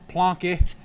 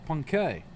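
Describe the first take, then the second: First: The name has an L sound after the P. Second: The name has no L sound after the P. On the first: This follows how the name is spelled. "I say Plonk, Plonky, but because that's how it's spelled" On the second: This is how the name is supposed to be said. "I guess that's how you say it"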